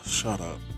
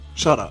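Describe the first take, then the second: First: It is said quietly, almost in a whisper. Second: It is said clearly in a full, normal voice. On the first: It is slipped in so it goes unnoticed. "slide it into the conversation very casually" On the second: It is said openly so it is heard. "Didn't mean to whisper that"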